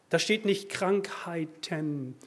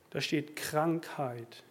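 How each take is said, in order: First: "Krankheiten" dwelt on, slow and deliberate; slow emphasis on the plural "Krankheiten"; contrastive stress. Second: "Krankheit" said slowly and held; slow, weighty stress on "Krankheit"; contrastive stress. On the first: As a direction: lean slowly on "nicht Krankheiten". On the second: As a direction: land hard on the singular "Krankheit". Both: Shown as a demonstration.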